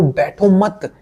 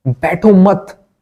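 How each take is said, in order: First: High, quick urging; a raised, pressing call to stop sitting; urgent plea. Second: बैठो मत stretched out slowly, higher and louder, each word hit; बैठो मत said very slowly and louder, stress on बैठो; slow stressed repeat. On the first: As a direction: push them to get up. Urging viewer not to sit idle. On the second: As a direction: drag out बैठो मत with weight on बैठो. Repeats the plea, drawn out. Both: Real, not acted.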